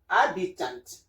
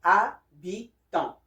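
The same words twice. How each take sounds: First: "habitant" the English way, final T sounded. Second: "habitant" in French, silent H and nasal last vowel. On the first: Teacher gives the English word first, English "habitant". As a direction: say "habitant" as in English, ending in -tant. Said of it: "in English". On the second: Teacher contrasts French with English, French "habitant". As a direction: say "habitant" as a-bi-ton, no final T. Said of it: "but in French is". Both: Shown as a demonstration.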